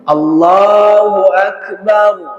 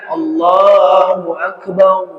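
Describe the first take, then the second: First: The final syllable is said with unrounded lips. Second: The final syllable is said with rounded lips. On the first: The speaker calls it right. "Ba-nya tetap tipis, nanti tebalnya ketika huruf ra" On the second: The speaker calls it wrong. "bukan Allahu akbar ... waw di depannya"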